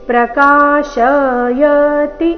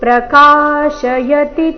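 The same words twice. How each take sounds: First: A vowel after 'ka' is drawn out long. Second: Only 'ka' is long; later vowels stay short. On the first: The speaker calls it wrong. "ಈ ರೀತಿ ಶ ಅಥವಾ ಯ ನ ದೀರ್ಘ ಮಾಡಬಾರ್ದು" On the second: The speaker calls it right. "ಕಾ ಮಾತ್ರ ದೀರ್ಘ"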